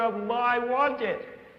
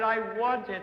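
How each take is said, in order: First: It is said louder still, most intensely. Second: It is said louder and more excitedly. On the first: "and again louder" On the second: "louder and more excited"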